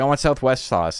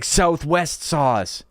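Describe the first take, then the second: First: Said in the usual way. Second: "Southwest sauce" stretched very slow, higher, each word spelled out; slow insistence. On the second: Retold or imitated. Coworker repeating order to cashier, slow insistent. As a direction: drag out "Southwest sauce" as if to a child. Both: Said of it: "she didn't know what he meant".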